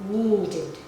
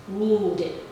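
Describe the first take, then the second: Both takes have the same delivery.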